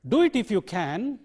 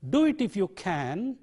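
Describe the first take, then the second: First: The word can has its full vowel. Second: The same.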